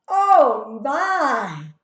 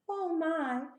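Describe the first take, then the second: First: It is said loudly. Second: It is said quietly.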